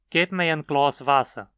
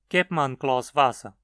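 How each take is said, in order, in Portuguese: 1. O pronome é pronunciado na sua forma completa. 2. O pronome é reduzido e se funde com a palavra seguinte.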